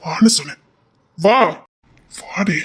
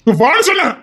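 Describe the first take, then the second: First: Hushed, unvoiced order; whispered command. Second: Higher, louder order; raised-voice order to come; loud command. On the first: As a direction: hiss it under your breath. Quiet command to come. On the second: Acted. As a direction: bark it out now.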